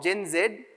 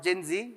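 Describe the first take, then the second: First: Z is said as 'zed', non-American style. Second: Z is said as 'zee', American style.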